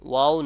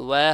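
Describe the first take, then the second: First: ওয়াও said as "wa-o", with an open back a; everyday Bengali ওয়াও, short and open; wrong open vowel. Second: ওয়া said as "wae", with a fronted vowel; correct fronted vowel. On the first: Teacher warning students off the wrong sound, open-vowelled ওয়াও. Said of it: "ওয়াও না". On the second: Teacher telling students the right sound, fronted ওয়া. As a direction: round lips opening to "weh" on ওয়া. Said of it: "ওয়া হবে". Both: Shown as a demonstration.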